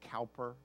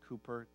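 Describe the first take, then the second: First: The first syllable rhymes with 'now'. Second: The first syllable rhymes with 'too'. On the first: "it looks like Cowper" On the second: "most people pronounce it Cooper"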